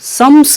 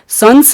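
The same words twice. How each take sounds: First: The nasal sound is pronounced as m. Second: The nasal sound is pronounced as n. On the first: The speaker calls it right. "संस्मरण म होता है" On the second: The speaker calls it wrong. "नहीं होता है"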